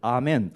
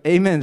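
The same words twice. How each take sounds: First: The word is said with the standard pronunciation. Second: The word is said with an American pronunciation. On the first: "正常来说标准的发音是Amen" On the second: "这个Amen 是他们美国人的发音"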